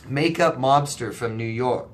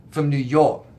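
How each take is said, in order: First: Said in the usual way. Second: "New York" in a thick New York accent. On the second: Shown as a demonstration. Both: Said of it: "You didn't like my New York accent?".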